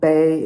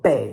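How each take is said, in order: First: The word has a high level tone. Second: The word has a sharply falling tone. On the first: It means carrying something on the back. "first tone Bei if you're carrying something" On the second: It means the back of the body. "fourth tone Bei if it means you're back"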